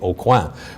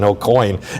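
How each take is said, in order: First: The name is pronounced the French way. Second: The name is pronounced the English way. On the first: "which is the right way to pronounce it in, in French" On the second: "I grew up as an Aucoin"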